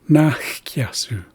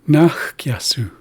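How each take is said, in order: Both takes have the same delivery.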